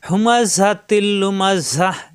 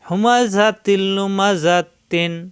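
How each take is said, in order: First: The last word ends in a breathy 'ah'. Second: The last word ends in 'atin' with nasal n. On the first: The reciter stops at this point. "আমরা জানি এখানে থামবো, থামলে লাস্টে সাকিন হয়ে যায়" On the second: The reciter joins it to the next word. "যদি মিলিয়ে পড়ি তখন কিন্তু এখানে দুই জেরের দুই জেরই থাকবে"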